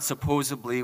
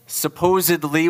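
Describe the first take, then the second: First: The middle consonant is a B sound. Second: The middle consonant is a D sound. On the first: The speaker calls it wrong. "it's not supposedly with a B" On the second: The speaker calls it right. "Supposedly with a D"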